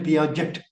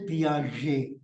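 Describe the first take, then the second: First: The name is said with an English pronunciation. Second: The name is said with a French pronunciation. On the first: The speaker calls it wrong. "You don't say Piaget" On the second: The speaker calls it right. "you say Piaget"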